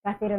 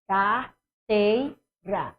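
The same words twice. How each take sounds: First: Said in the usual way. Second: Carteira stretched very slowly, lingering on the stressed syllable tei; drawn-out carteira. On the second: Shown as a demonstration. Teacher showing students the stressed syllable by stretching Carteira slowly. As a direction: drag out Carteira to find where the voice lingers. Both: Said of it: "Eu faço carteira, onde eu demorar é a tônica".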